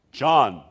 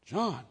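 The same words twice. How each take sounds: First: "John" said firmly, as a decided matter; emphatic. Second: "John" questioned softly in disbelief; a softer, puzzled echo of "John"; incredulous. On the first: Elizabeth names her baby, "John" said with firm emphasis. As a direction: land hard on "John", falling at the end. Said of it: "emphatically says". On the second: Relatives react to the name, "John" softly incredulous. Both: Retold or imitated.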